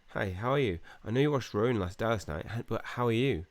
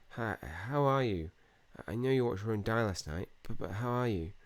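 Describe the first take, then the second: First: It sounds nosy, eager to hear a secret. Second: It sounds afraid, as if dreading the answer.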